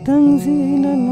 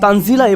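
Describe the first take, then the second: First: The word is said softly and calmly. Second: The word is said forcefully, like an exclamation. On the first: The speaker calls it wrong. "আপনারা তো এভাবে পড়েন না" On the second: The speaker calls it right. "তখন তানজিলা এভাবে আসে"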